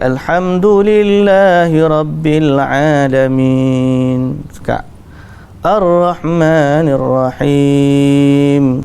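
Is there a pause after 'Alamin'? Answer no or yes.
yes. There is a clear pause after each verse. Each verse is stopped at its proper place. The speaker calls it right. "Nabi memotong-motong bacaan dia, maknanya Pak berhenti"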